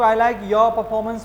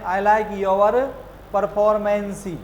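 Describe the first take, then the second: First: The word ends cleanly on an 's' sound. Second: The word ends with an added 'ee' vowel. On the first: The speaker calls it right. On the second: The speaker calls it wrong.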